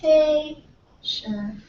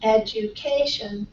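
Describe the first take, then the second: First: "education" drawn out slowly in four separate, softer syllables. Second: "Education" as one word, stress on CA, falling at the end; joined-up word stress. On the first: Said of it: "with balls of different sizes". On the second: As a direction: run the syllables of "Education" together, leaning on CA. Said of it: "It's about the same". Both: Shown as a demonstration.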